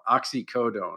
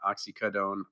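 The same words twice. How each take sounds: First: The 'co' syllable keeps a full vowel. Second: The 'co' syllable is reduced to a schwa. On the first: The speaker calls it right. "pronounce it like everybody else did" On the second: The speaker calls it wrong.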